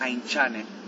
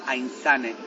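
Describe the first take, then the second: First: The middle consonant is a TX sound. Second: The middle consonant is a Z sound. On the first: "Y si sería TX" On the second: "Y si sería solo Z"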